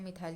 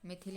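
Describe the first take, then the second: First: The second syllable has a long 'ile' sound. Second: The second syllable has a short 'il' sound. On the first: "दोनों सही है" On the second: "दोनों सही है"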